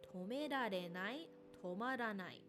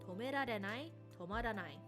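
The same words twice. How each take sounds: First: The phrase is said at a moderate pace. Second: The phrase is said at a quick pace. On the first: "A little faster" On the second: "A little faster"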